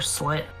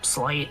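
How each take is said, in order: First: The name has l before a short i. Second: The name has l before a long i. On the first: "that just says Slit to me" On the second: "Or Slight"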